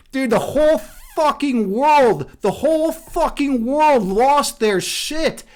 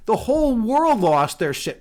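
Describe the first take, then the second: First: Slow, drawn-out disbelief; incredulous emphasis. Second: Said in the usual way. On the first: Real, not acted. Streamer tells viewers about the outrage, slow and incredulous. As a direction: lean hard on every word. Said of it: "emphatic retelling of backlash". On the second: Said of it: "repeats it flatly".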